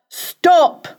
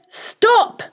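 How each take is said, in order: First: It is shouted in a low voice. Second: It is shouted in a high, shrill voice.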